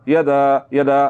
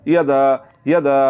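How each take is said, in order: Both takes have the same delivery.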